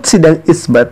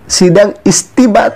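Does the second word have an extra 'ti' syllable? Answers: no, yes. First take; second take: no; yes. First: The second word is said as two syllables, 'isbat'. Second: The second word is said as three syllables, 'istibat'. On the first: The speaker calls it right. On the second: The speaker calls it wrong.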